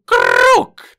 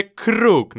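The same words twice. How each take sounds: First: High, loud, drawn-out mock scream; imitated shriek. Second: A held-out call, only mildly raised; usual cry. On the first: Host mimics a gamer dropping Kruk, high drawn-out mock shriek. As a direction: imitate an over-excited player screaming it. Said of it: "krzyczy coś w stylu Kruk". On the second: Shown as a demonstration. Host shows how players usually shout for Kruk, mild drawn-out cry. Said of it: "krzyczy się zwykle Kruk".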